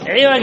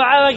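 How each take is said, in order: First: The first vowel is an 'i' sound. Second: The first vowel is an open 'a' sound. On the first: The speaker calls it right. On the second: The speaker calls it wrong.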